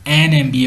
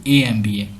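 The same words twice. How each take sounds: First: "एन M B ए" with the n sounded before em; article AN before MBA. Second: "ए M B ए" with a bare vowel and no n; wrong article A. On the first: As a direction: say "एन", then the letters "M B ए". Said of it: "एन M B ए बोलेंगे". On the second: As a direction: say "ए" alone before "M B ए". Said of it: "ना कि ए M B ए". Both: Shown as a demonstration.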